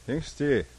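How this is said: It is said in a lukewarm, half-hearted way.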